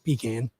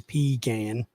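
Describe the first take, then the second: First: The word is said fast and short. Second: The word is drawn out and stretched. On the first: This is how the speaker normally says it. "it's just pecan. It's very fast and quick" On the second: This is how Southerners say it. "I don't stretch it. You know, I, I don't say pecan"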